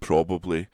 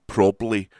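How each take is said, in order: First: The middle syllable is fully pronounced. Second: The middle syllable is dropped.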